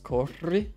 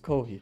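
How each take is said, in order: First: The double R is a trilled R sound. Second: The double R is an H-like sound. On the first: It is the Spanish word for run. "when you say um, run in Spanish" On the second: It is the Portuguese word for run. "when you say run in Portuguese"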